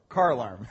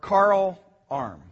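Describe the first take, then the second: First: It is said faster, running together. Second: It is said at normal speed.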